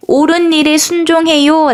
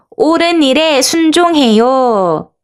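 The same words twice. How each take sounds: First: Said in the usual way. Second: Slow, higher-pitched call for joining in; mild call-out. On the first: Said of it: "라고 적혀 있네요". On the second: Shown as a demonstration. Teacher leads children in shouting together, slow mild call-out. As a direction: call it out slowly, drawing out the words. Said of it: "같이 큰 소리로 외쳐볼까요".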